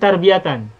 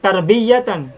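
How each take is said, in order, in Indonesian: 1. Bunyi y pendek dan tunggal. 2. Bunyi y dibunyikan panjang dan digandakan. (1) "ianya tidak bertasdid ya" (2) "bukan tarbiyatan"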